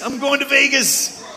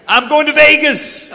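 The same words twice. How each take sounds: First: High, laughing echo of the boast; laughing repeat. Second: Loud, high, triumphant announcement; excited shout. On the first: The son repeats his Vegas plan to the crowd, laughing as he says it. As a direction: laugh through it, still thrilled. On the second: The son who is leaving home tells his dad where he's going, with a loud, high excited shout. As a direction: yell it like a son who has just found his freedom. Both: Acted.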